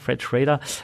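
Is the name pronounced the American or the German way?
American. The name is pronounced the American way.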